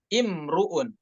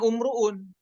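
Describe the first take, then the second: First: The word begins with an i vowel. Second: The word begins with a u vowel. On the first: The speaker calls it right. "dibacanya dengan imruun" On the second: The speaker calls it wrong. "bacanya bukan umruun"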